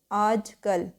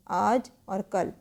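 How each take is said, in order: First: Said in the usual way. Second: Slow, separated words. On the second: Shown as a demonstration. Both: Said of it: "आज कल बिल्कुल अलग लिखना है इसको".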